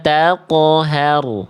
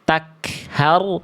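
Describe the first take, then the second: First: The q sound is released with a bounce. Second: The q sound lets out a puff of breath. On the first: The speaker calls it right. "Tapi ada pantulannya" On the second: The speaker calls it wrong. "Jangan ada keluar nafas"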